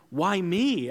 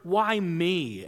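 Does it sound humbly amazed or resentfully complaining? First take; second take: humbly amazed; resentfully complaining. First: It sounds humbly amazed at being chosen. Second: It sounds resentful, complaining about being chosen.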